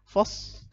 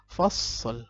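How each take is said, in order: First: The final l is not sounded. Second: The final l flows on smoothly. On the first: The speaker calls it wrong. "lamnya nggak kebaca" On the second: The speaker calls it right. "tapi dibaca mengalir"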